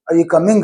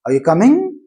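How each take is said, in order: First: "coming" with an added uh after the g; "coming" said as coming-guh; Tamil-influenced schwa. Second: "coming" swept upward at the end; rising question tune through "coming"; rising intonation. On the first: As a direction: tack a schwa onto the end of "coming". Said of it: "Tamilians who are influenced by using this schwa". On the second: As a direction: ask it with a clear rise on "coming". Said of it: "rising tone, what we call intonation". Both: Shown as a demonstration.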